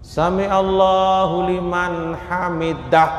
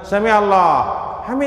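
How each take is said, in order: First: Every syllable of the phrase is pronounced clearly. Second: Syllables are swallowed and the phrase is cut short. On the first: The speaker calls it right. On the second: The speaker calls it wrong.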